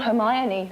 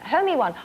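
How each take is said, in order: First: The name ends with a sound like 'oh-nee'. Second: The name ends with a sound like 'one'. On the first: The usual form of the name. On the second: A child's misreading of the name. "A kid said to me, you know Hermy one?"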